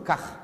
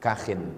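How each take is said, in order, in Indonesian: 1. Kata itu berakhir dengan konsonan tanpa tambahan. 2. Kata itu berakhir dengan tambahan bunyi -in. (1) "Cara membacanya bi iskanil kha, kha-nya sukun" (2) "dibaca kasrah ma'at tanwin, dibaca dengan tanwin"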